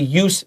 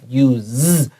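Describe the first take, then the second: First: The word ends with a hissing s sound. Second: The word ends with a buzzing z sound. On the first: The word is used as a noun. The speaker calls it right. "This is a noun, so we're going to say use" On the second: The word is used as a verb. The speaker calls it wrong. "not use"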